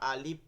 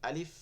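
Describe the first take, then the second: First: The vowel is stretched out long. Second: The vowel is short, ending with released air. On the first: The speaker calls it wrong. "অ্যালিফ টানা যাবে না, আলিফ বা আলিফ এরকম বলা যাবে না।" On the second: The speaker calls it right. "শেষে একটা বাতাস বের হচ্ছে।"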